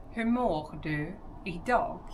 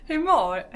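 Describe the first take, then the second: First: Said in the usual way. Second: "Hur mår" in a high, loud put-on Skåne accent. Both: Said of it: "I can't do it".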